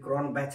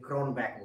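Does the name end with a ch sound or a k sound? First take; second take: ch sound; k sound. First: The name ends with a ch sound. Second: The name ends with a k sound. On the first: "क्रॉन बैच मत बोलिए" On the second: "क्रॉनबैक बोलिए"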